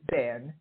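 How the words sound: The name is said with a Swiss pronunciation. "as it would be pronounced by the Swiss"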